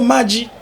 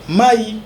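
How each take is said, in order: First: The word has a j sound in the middle. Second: The word has no j sound in the middle. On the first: This is how it is said further north in Kivu. "Maï devient Maji" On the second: This is how the speaker's own dialect says it. "chez moi dans mon Swahili, on appelle l'eau Maï"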